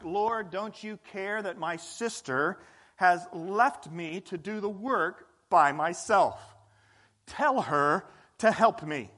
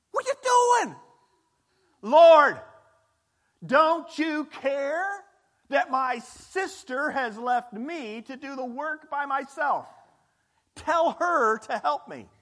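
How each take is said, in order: First: Quoting Martha. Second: High, loud, slow indignant outburst; exasperated Martha. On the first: A narrator's reading. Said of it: "She came to him and asked". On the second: Acted. Martha complains to Jesus about her sister, indignant and loud. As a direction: let Martha burst out at Jesus in frustration.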